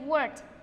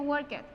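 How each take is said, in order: First: The ending is a plain T sound. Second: The ending is not a plain T sound. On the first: The speaker calls it right. "se dice worked. El sonido final va a ser el de una T" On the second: The speaker calls it wrong. "No se dice worked"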